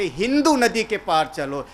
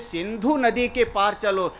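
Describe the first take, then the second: First: The first word begins with an h sound. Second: The first word begins with an s sound.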